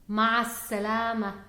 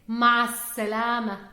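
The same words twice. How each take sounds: First: The article is dropped and runs into salama. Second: The same.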